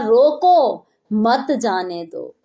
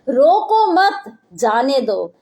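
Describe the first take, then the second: First: The pause comes after 'roko'. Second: The pause comes after 'mat'.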